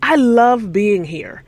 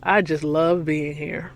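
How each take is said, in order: First: It sounds genuinely warm and loving. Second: It sounds flat and not really loving.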